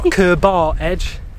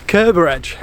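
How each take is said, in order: First: The second syllable is a full 'bar' sound. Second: The second syllable is a weak 'ber' sound. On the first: The speaker calls it wrong. "It's not Kerbar Edge" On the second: The speaker calls it right. "it's Kerber"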